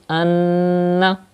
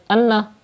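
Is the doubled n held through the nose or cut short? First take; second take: held; short. First: The n is held nasally for two counts. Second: The n is short without nasal holding. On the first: The speaker calls it right. "Keep the sound into the nose up to two harakat" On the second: The speaker calls it wrong. "that's not correct, because you are not doing gunna"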